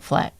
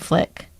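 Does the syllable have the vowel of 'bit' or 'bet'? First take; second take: bet; bit. First: The vowel sounds like the one in 'bet'. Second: The vowel sounds like the one in 'bit'. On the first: The speaker calls it right. "I'm saying Fleck" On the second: The speaker calls it wrong. "You're saying Flick"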